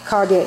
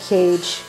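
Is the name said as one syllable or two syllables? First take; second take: two syllables; one syllable. First: The name is said as two syllables. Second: The name is said as one syllable. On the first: The speaker calls it right. "But no, it's Legend of Ka- Kage" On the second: The speaker calls it wrong. "as a kid, I used to pronounce this Legend of Cage"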